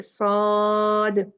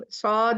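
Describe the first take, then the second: First: "सौद" drawn out very slowly, ending on a bouncing qalqala. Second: Said in the usual way. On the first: Shown as a demonstration. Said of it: "ये हमेशा कलकला पे खत्म होगा". ("सौद" को बहुत खींचकर, आख़िर में कलकला के साथ) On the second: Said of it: "इसको सौद नहीं".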